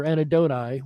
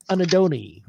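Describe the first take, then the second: First: "anadoni" ending to rhyme with eye; ending pronounced "nigh". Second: "anadoni" ending in a long ee sound; ending pronounced "nee". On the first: Host offers the other way to say the slug's name, "anadoni" ending in "nigh". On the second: Host offers viewers one way to say the sea slug's name, "anadoni" ending in "nee". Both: Shown as a demonstration. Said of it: "whichever you prefer".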